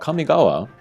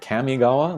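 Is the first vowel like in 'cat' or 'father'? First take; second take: father; cat. First: The first vowel is an open 'ah' sound. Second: The first vowel sounds like in 'cat'.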